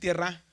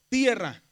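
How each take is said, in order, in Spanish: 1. El acento está en la última sílaba. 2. El acento está en la primera sílaba. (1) "Si le pongo aquí va a decir tierra" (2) "Así se dice, tierra. El acento va en la E"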